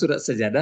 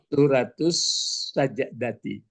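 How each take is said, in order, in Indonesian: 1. Kata terakhir berakhir dengan bunyi 'ah' pendek. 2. Kata terakhir berakhir dengan akhiran 'ati' penuh. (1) "perasaan awak kan surat sajadah" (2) "Jadi yang benarnya adalah suratus sajadati"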